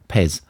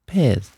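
First: The word is said in a British accent. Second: The word is said in an American accent. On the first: "if you say Pez in a British accent" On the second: "So now put a Yankee accent on it"

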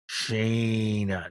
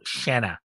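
First: The first vowel is a long 'ay' sound. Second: The first vowel is a short 'a' sound. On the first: The speaker calls it wrong. "I am from up here where my A's are long" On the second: The speaker calls it right.

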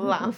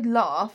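First: It has a short northern 'a' vowel. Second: It has a long southern 'ah' vowel. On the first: "and not laugh" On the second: "I say laugh"

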